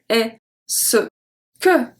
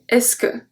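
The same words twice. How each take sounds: First: Every syllable is said slowly and in full. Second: It is said quickly, with the syllables squeezed together. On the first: The speaker calls it wrong. "we don't say est-ce que" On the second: The speaker calls it right. "Quickly, fast speech. we say est-ce que"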